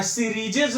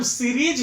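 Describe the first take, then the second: First: सीरीजेज with an extra "ej" syllable; wrong plural form. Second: सीरीज in two syllables, no added ending; correct unchanged form. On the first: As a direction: add a third syllable, सीरीजेज. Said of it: "नहीं होता है". (ग़लत बहुवचन, अंत में "जेज") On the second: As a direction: stress सीरीज and stop after the j. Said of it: "सीरीज ही होता है". (सीरीज, बिना किसी प्रत्यय के) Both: Shown as a demonstration.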